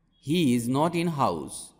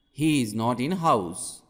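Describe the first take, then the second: No difference in how they are said.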